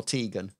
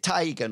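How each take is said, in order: First: "Tegan" with a long ee, TEE-gun; first syllable of "Tegan" rhymes with tee. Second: "Tegan" with a long eye vowel, TIE-gun; first syllable of "Tegan" rhymes with tie. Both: Shown as a demonstration. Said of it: "Is it Tegan or Tegan?".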